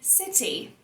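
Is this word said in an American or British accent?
British. It is said in a British accent.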